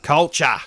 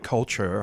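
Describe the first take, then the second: First: It is said in an Australian accent. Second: It is said in a non-Australian accent. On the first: "it allows me to utilise my Australian accent" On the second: "I don't go culture"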